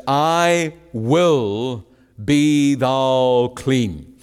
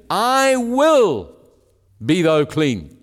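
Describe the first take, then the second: First: Very slow, every word weighed; emphatic quote. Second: "I will" lifted high, then "be thou clean" falls; emphasis on I will. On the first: Preacher quoting Jesus to the congregation, slow and weighty. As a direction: lay down each word of I will be thou clean slowly. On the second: Preacher stressing Jesus's words of healing, rising on I will. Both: Shown as a demonstration. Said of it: "note the emphasis on what Jesus had spoken".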